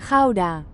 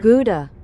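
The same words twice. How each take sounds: First: Gouda is said with a Dutch pronunciation. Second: Gouda is said with an American pronunciation.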